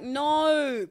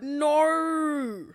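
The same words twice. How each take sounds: First: It is said in her natural Kiwi accent. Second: It is an exaggerated, mocking imitation of it.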